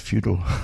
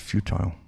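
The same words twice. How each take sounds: First: The word is said with an American pronunciation. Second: The word is said in the speaker's usual accent.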